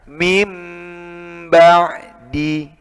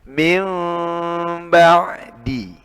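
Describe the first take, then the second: First: The m is a firm, fully closed sound. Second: The m is softened, nasal, lips not fully shut. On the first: The speaker calls it wrong. "ini akhirnya belum sempurna" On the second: The speaker calls it right. "sedikit ada ruang rongganya. Jadi tidak tertutup"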